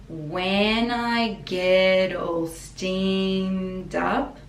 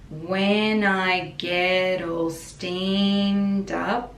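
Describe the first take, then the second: The two takes are said the same way.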